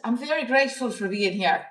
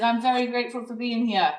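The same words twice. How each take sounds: First: London attempt slipping into Irish; a poor London accent that lands as Irish; accidental Irish accent. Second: Badly faked London accent; horrible London accent. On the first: Shown as a demonstration. Retrying the London guy's line, badly faked accent sounding Irish. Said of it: "That's an Irish accent". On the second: Quoting the nice guy from London, in a horrible London accent. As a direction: imitate a Londoner, not very well. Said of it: "that's my horrible London accent".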